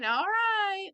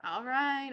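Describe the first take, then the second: First: Giving in. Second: Said in the usual way. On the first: Acted. Izzy giving in to Larry.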